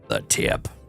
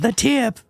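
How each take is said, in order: First: It is said in a deep, low, sleazy voice. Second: It is said in a creepy cartoon character voice. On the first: "the really like dirty old man sounding deep voice" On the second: "if you do the uh, what was his name, Herman from uh, from Family Guy"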